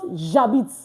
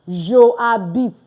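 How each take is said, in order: First: The j sound joins straight onto habite. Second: Je is said as a separate syllable. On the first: The speaker calls it right. "It's just j'habite. Ja and bit together" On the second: The speaker calls it wrong. "we hear something like je habite"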